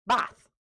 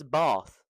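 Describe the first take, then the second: First: "Bath" with a short A as in cat, high and loud; short-A pronunciation. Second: "bath" with a long drawn-out ah; long-A pronunciation. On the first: Teacher giving the rejected take, "Bath" with short A. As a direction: say "Bath" with the flat vowel of cat, pitched up. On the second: Teacher correcting the word to RP, "bath" with long ah. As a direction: say "bath" as "bahth", slowly. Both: Shown as a demonstration. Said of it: "No, it's bath".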